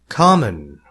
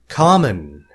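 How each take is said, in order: The two takes are said the same way.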